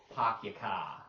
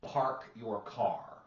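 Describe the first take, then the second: First: "Park your car" as "Pahk yah cah", the r sounds dropped; Boston accent, quicker. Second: Slow, drawn-out South Boston "Park your car" with dropped r sounds; Boston accent. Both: Shown as a demonstration. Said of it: "the South Boston accent".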